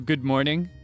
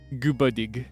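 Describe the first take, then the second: First: The phrase is said clearly, with a normal nose. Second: The phrase is said as if nasally congested.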